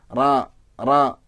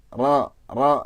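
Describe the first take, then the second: No difference in how they are said.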